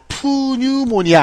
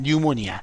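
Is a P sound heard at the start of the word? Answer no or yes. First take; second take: yes; no. First: The word begins with an audible P sound. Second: The word begins directly with an N sound. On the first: The speaker calls it wrong. "푸뉴모니아 아닙니다" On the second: The speaker calls it right. "이 P가 묵음이에요. 그냥 뉴모니아"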